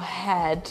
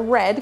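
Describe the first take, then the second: First: The word starts with a breathy h-like sound. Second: The word starts with an English r sound. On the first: "como had" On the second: "ler a palavra red"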